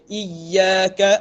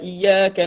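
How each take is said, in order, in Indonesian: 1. Bunyi y ditahan dengan sedikit pantulan. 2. Bunyi y pendek dan tidak digandakan. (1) "ah ya tu dia ada henjuk sikit" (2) "Jangan dibaca"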